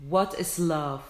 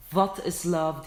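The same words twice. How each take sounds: First: "What" said with a rounded w; right w. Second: "What" said as "vat" with a v; "What is love" with the w turned into v; wrong v. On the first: ("What" yuvarlak w ile) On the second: ("What" v ile yanlış) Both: Shown as a demonstration. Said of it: "What is love değil".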